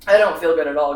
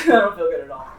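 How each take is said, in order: First: Said in the usual way. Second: Laughing it off. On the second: Real, not acted.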